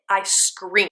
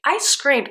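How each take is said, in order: First: Said in the usual way. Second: I screamed pitched higher on I; emphatic repeat. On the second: Real, not acted. Reviewer recalling the cliffhanger, emphatic higher repeat. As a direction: lift the second I screamed up high.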